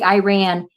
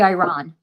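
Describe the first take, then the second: First: The first syllable sounds like 'eye', as 'I ran'. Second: The first syllable does not sound like 'eye'. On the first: "I say Iran because it's that song I ran so far" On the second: "I think it's supposed to be Iran"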